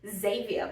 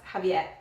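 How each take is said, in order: First: The name is said the Australian English way. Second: The name is said the Spanish way. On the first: The speaker calls it wrong. "I was pronouncing it Xavier because of how it's spelled" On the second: The speaker calls it right.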